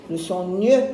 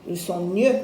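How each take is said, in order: No difference in how they are said.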